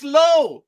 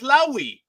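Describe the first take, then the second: First: The name ends on a plain 'oh' sound. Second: The name ends with an added 'ee' sound. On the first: This is how the name has always been said. The speaker calls it right. "It's Lowe. It's always been Lowe" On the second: This is how another person says the name. The speaker calls it wrong. "the other jackass pronounces his name as Lowy"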